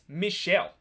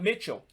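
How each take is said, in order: First: The name is said the French way. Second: The name is said the English way. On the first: The speaker calls it right. "It's Michelle in a French French way" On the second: The speaker calls it wrong. "it's not Mitchell"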